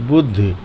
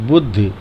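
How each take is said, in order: Both takes have the same delivery.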